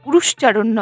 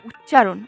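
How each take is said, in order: First: The word is said as 'urushcharan'. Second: The word is said as 'uccharan'. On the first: The speaker calls it wrong. "উরুশ্চারণ নয়" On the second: The speaker calls it right. "কিন্তু কথাটা উচ্চারণ"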